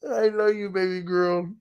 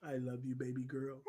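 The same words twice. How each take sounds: First: Said in the usual way. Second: Soft whispered I love you. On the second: Real, not acted. Tender aside to his baby daughter.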